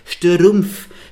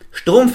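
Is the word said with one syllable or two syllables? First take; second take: two; one. First: The word is split into two syllables. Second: The word is said as one syllable. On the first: "vereinfachen das, machen 2 Silben draus" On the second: "besteht aus ganzen 6 Konsonanten und einem Vokal"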